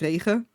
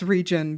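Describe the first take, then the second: First: The word has a Dutch pronunciation. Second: The word has an English pronunciation. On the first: It is the original word for rain. "It it is actually just the Dutch word for rain" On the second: It is easier for others to say. "I just pronounce it as region because otherwise no one is gonna know how to pronounce it"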